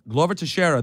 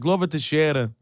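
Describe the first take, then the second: First: The name is said with an American English accent. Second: The name is said with a Brazilian Portuguese accent. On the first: "It's a very gringo way of pronouncing it" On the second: "Brazilian, in Portuguese, everything's like"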